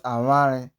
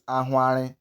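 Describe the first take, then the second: First: Aware with the w squeezed through the lips; aware, buzzing lips and no h; vw pronunciation. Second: Ahware with a breath before the w; ahware, h puffed into an open w; hw pronunciation. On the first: Teacher ruling out the similar word, vw pronunciation. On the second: Teacher naming the other word, hw pronunciation. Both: Shown as a demonstration. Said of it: "not aware".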